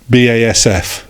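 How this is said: The letters are said with English letter names. This is how the name was said in England. "it was pronounced, in England at least"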